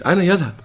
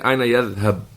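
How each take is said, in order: First: The verb ends with a final u vowel. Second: The verb ends with no final vowel. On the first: The speaker calls it right. "Then it's يذهب مرفوع" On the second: The speaker calls it wrong. "You don't say أين يذهب, make it majzoom"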